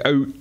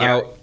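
First: The vowel has a Canadian 'oot'-like sound. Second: The vowel has a standard American 'owt' sound. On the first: "the way you say out" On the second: "as opposed to out"

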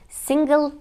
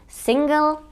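Both takes have the same delivery.

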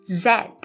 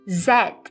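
First: The letter is said as zed, British style. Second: The same.

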